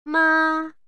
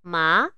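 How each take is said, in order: First: It is said with the first tone. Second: It is said with the second tone. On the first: "Bunyi yang pertama" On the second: "Bunyi yang kedua"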